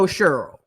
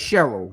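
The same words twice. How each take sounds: First: It is said the country way. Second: It is said the New Orleans way, every letter sounded. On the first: The speaker calls it wrong. "That's some country stuff" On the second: The speaker calls it right. "as we call it in New Orleans"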